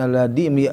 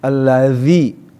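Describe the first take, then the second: First: The middle consonant is a hard d-like sound. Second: The middle consonant is a soft z-like sound. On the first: The speaker calls it wrong. "bukan alladhi, yang dikhawatirkan alladhi" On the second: The speaker calls it right. "allazi jadi harus ada za za za"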